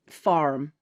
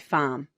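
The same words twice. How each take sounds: First: The R sound is clearly pronounced. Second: The R sound is dropped entirely. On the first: "We don't say our R's like you do in American" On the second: "as opposed to I say farm"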